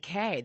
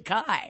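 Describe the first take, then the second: First: The vowel sounds like the one in 'May'. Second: The vowel sounds like the one in 'my'. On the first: The speaker calls it right. "The K rhymes with May, Ray, Bay" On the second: The speaker calls it wrong. "commonly mispronounced to Kai, which Kai rhymes with my"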